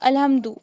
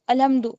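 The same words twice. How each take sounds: The two takes are said the same way.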